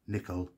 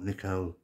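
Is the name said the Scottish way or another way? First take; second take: Scottish; another. First: The name is said the Scottish way. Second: The name is said a non-Scottish way. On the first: The speaker calls it right. "it is Maurice Nicoll" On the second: The speaker calls it wrong. "not Nicoll"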